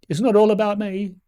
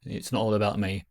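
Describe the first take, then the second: First: High, loud, playful repeat; mock self-important outburst. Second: Said in the usual way. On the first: Reminding viewers it's about them, high mock outburst. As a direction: belt it out high in mock protest.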